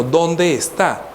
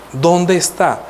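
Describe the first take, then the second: First: Drawn-out dónde, slow and searching; ¿Dónde está? with dónde held long, asked slowly; slow searching question. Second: Said in the usual way. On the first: Retold or imitated. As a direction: stretch dónde out as if looking around.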